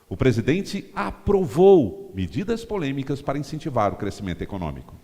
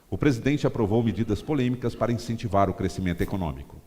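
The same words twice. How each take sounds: First: The word "aprovou" is stressed. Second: No word is stressed; the reading is neutral. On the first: It appeals to people awaiting the approval. "Você dá ênfase no aprovou" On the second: No point of view is pushed. "eu li a frase sem dar ênfase em palavra nenhuma"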